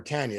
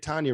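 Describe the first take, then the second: First: Tanya said as TAN-ya; Tanya rhyming with "can ya"; flat first vowel. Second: Tanya said as TAHN-ya; Tanya with an open "ah"; broad first vowel. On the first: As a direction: say Tanya with the short "a" of cat. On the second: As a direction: say Tanya with an "ah", as in father. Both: Shown as a demonstration. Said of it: "depending how she says it".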